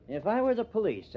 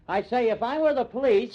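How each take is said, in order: First: Said in the usual way. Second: Raised, higher and louder, repeating the words over her; shouting. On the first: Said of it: "what are you shouting about". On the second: Acted. Reporter shouting his point at the suspect, loud and raised. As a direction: shout the line to drown her out. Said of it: "[name], what are you shouting about?".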